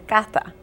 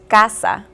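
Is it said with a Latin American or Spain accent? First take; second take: Spain; Latin American. First: The s is lisped like th, Castilian style. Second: The s is said as a plain s.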